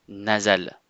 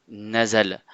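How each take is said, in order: No difference in how they are said.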